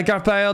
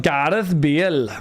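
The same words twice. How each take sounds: First: "Gareth Bale" run together quickly, "Gareth" slurred to "Garf"; mumbled name. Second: "Gareth Bale" said slowly, each sound clear, stress on "Gareth"; careful pronunciation. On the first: Real, not acted. Reading chat quickly, name slurred before chat complains. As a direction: toss off "Gareth Bale" casually without care. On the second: Shown as a demonstration. Chat said he mispronounced it, so he repeats it slowly and clearly. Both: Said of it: "didn't recognise him since you didn't pronounce his name".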